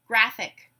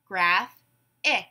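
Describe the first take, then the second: First: Said in the usual way. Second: "Graph-ic" in two separated beats; syllable by syllable. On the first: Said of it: "I will give you a word". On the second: Shown as a demonstration. Class breaks the word apart together, syllable by syllable. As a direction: say "Graph-ic" as graph, pause, ic. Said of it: "break it apart into syllables".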